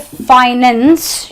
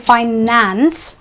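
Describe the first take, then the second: First: The last syllable has a reduced 'ens' vowel. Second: The last syllable has a full 'ance' vowel. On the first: The speaker calls it wrong. "You don't say" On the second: The speaker calls it right. "you say"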